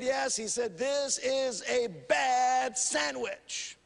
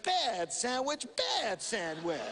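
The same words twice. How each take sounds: First: Slow, soft, sulky complaint; lightly voiced disgruntled flyer, softer and slow; grumpy passenger. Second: Slow, soft mock scolding; hushed, slow mock reprimand with a laugh at the end; scolding a bad dog. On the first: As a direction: drag out the grievance like a spoiled customer. Passenger complains about sandwich. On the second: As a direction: tut at the sandwich like a naughty puppy. Attendant scolds the sandwich.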